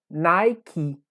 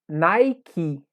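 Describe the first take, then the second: The two takes are said the same way.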